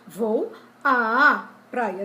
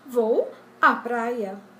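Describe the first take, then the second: First: The 'à' vowel is exaggerated and drawn out. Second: The 'à' vowel is short and unstressed. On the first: The speaker calls it wrong. "Eu estou acentuando, enfatizando o emprego da crase aqui" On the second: The speaker calls it right. "A gente diz simplesmente"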